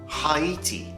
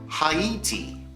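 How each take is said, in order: Both takes have the same delivery.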